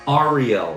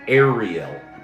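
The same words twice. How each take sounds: First: The name begins with an 'ar' sound. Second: The name begins with an 'air' sound. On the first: "Number one, ... Is it R" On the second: "Number two, ... or air?"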